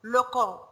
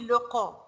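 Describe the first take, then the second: The two takes are said the same way.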